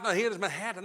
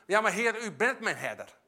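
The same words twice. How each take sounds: First: Half-hearted reciting. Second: "Ja, maar Heer" rises with firm conviction, then a settled "u bent mijn herder"; confident declaration. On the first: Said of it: "niet in die turbulentie moet zoeken in je Bijbel". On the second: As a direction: claim it as a sure truth, not a search. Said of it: "Nee, dan weet je van". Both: Shown as a demonstration.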